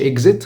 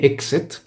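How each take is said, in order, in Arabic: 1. يُنطق حرف x هنا gz. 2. يُنطق حرف x هنا ks. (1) "ما بنقولش اكزيت خالص" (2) "بنقول اكسيت"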